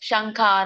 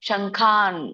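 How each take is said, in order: First: The word ends with a short vowel. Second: The word ends on a bare consonant. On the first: The speaker calls it wrong. "ಶಂಖಾನ ಅನ್ನಂಗಿಲ್ಲ" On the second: The speaker calls it right. "ಶಂಖಾನ್ ವ್ಯಂಜನ ಇದೆ"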